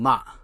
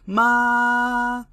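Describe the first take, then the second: First: The pitch drops straight down. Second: The pitch is high and rises. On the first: "the M tone is straight down" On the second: "it's actually a high rising tone, almost like you're singing"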